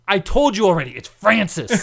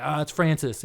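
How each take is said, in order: First: Loud, higher acted exasperation; exasperated retort. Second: Said in the usual way. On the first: Coworker correcting the storyteller once more, exasperated retort. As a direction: insist on it, fed up.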